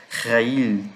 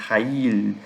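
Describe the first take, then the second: The two takes are said the same way.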